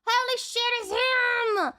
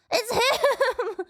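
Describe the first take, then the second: First: High thrilled cry; excited recognition. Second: High, laughing cry of delight; laughing excitement. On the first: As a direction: blurt it out with joy. Recognizes a character. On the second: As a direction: laugh it out in glee. Recognition, laughing. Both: Real, not acted.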